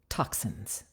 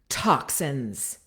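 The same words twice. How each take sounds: First: The vowels are short, said close and intimate. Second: The vowels are longer and vocally pushed.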